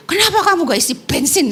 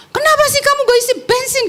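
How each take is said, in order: First: Mildly angry retort. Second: High, fast, angry shout at her sister; angry scolding. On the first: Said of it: "Marah-marah lah". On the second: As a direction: snap at the sister over the empty tank. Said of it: "Saya marah-marah gitu". (bentakan marah dengan nada tinggi dan cepat) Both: Retold or imitated.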